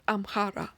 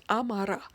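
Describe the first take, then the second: First: Amhara with an h after the m; rejected name, with h. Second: Amara with no h sound, a-ma-ra; correct name, no h. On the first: Correcting the common name, Amhara pronounced with its h. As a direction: say Amhara as am-ha-ra, sounding the h. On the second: Teaching what the people are called, Amara pronounced without h. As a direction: say Amara with a plain m straight into the vowel. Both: Shown as a demonstration. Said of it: "not Amhara".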